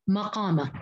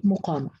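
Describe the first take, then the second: First: مقامة opening as ma-qaama; fatha on the mim. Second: مقامة opening as mu-qaama, low; damma on the mim. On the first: Teacher showing other readers' form, mim with a. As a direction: open the first m of مقامة to ma. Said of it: "بفتح الميم". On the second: Teacher showing Hafs's reading, mim with u. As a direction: round first m of مقامة to mu. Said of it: "قرأها بضم الميم". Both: Shown as a demonstration.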